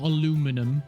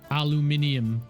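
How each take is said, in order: First: The word ends with a short '-num' sound. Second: The word ends with a longer '-nium' sound. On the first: The speaker calls it wrong. "Not aluminum" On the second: The speaker calls it right. "that's how, how you say it"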